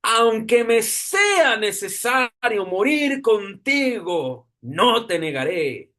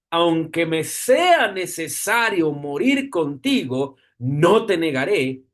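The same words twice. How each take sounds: First: "aunque me sea necesario morir contigo" pitched higher and slow, each word weighed; a slow, raised second reading to drive the verse home; emphatic repeat. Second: Said in the usual way. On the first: Shown as a demonstration. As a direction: reread it with pleading insistence. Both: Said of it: "vuelvo y lo repito".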